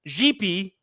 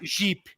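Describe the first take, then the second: First: The final vowel is fully pronounced. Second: The final vowel is swallowed. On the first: The speaker calls it wrong. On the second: The speaker calls it right. "you swallow that"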